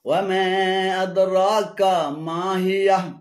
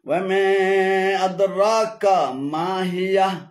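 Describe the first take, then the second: No difference in how they are said.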